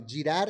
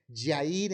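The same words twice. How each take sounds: First: Said in the usual way. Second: "Yair" with a Y sound instead of the Spanish J sound; mispronounced "Yair" for girar; wrong pronunciation. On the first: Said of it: "en lugar de girar". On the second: Shown as a demonstration. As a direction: say "Yair" with a Y sound where the J goes. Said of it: "la G como si fuera I".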